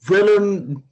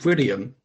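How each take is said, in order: First: The name is said as Willem. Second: The name is said as William. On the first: The speaker calls it right. "Is that how you say it?" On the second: The speaker calls it wrong. "Nah, Willem"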